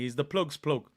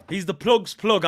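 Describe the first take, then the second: First: Said in the usual way. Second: Louder, punching plug's plug; proud shout. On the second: Real, not acted. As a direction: announce it like a catchphrase. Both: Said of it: "I like that one".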